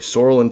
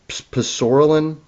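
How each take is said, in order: First: The initial P is silent. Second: The initial P is clearly pronounced. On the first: The speaker calls it right. "The P is actually silent" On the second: The speaker calls it wrong. "That's not the way you pronounce it"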